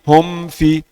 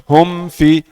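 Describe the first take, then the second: No difference in how they are said.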